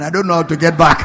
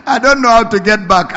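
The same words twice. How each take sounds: First: Half-laughing, voicing a friend's regret. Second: Laughing, louder. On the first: Preacher retelling his friend's regret, laughing through it. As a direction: chuckle through the friend's lament. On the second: Retold or imitated. Preacher repeating his friend's lament to the congregation, louder and laughing.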